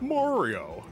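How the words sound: Mario is said in a flat Californian accent. The speaker has dropped their home accent. The speaker calls it wrong. "they're all like"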